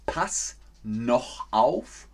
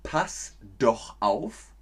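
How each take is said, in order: First: Slow "Pass noch auf" with noch, the wrong choice; slow quiz form. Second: Slow "pass doch auf" with doch, the right choice; slow quiz form. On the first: Teacher slowly offers "Pass noch auf" as a quiz choice. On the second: Teacher slowly offers "pass doch auf" as a quiz choice. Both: Shown as a demonstration. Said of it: "Nur eines ist korrekt".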